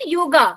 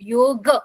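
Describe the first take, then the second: First: The word ends with an added long a. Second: The word ends on a bare consonant. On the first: The speaker calls it wrong. "Not योगा" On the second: The speaker calls it right. "Basically word जो है that is योग"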